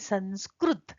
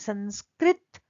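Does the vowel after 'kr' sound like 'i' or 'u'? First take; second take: u; i. First: The vowel after 'kr' sounds like 'u'. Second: The vowel after 'kr' sounds like 'i'. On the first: This is how southern speakers say it. "दक्षिण भारत के लोग बोलते हैं" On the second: This is how northern speakers say it. "North के लोग कहते हैं"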